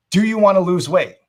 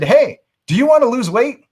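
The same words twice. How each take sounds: First: Said in the usual way. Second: High, loud, blunt salesman's question; pushy sales pitch. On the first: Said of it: "by saying that phrase". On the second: Retold or imitated. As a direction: bluntly pitch a stranger in a room. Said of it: "walked up to them and said".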